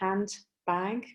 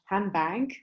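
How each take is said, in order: First: Every sound of the word is carefully articulated. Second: The word is said quickly with sounds blending together. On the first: "when they pronounce it very carefully" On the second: "in more natural, more rapid speech"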